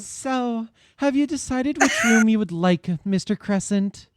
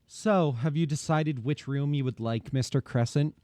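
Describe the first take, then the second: First: The line is read in a more feminine voice. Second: The line is read in a less feminine voice. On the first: The speaker calls it right. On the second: The speaker calls it wrong.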